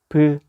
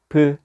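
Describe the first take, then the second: Both takes have the same delivery.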